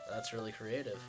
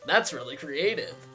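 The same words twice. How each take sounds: First: It is said in a flat, deadpan voice. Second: It is said in a more expressive voice. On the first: "Maybe I should say it with a less deadpan voice" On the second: "with a less deadpan voice"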